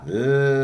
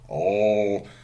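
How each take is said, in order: First: The L sound is clear and light. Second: The L sound is dark and vowel-like. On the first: "there is clear L" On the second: "there is dark L"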